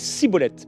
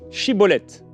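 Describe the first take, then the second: First: The word begins with an 's' sound. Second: The word begins with a 'sh' sound. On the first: The speaker is from Ephraim. The speaker calls it wrong. "il n'arrivait pas à à bien prononcer" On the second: The speaker is from Gilead. The speaker calls it right. "dis Shibboleth"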